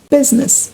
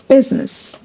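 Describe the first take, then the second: First: The stress is on the first syllable. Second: The stress is on the first syllable.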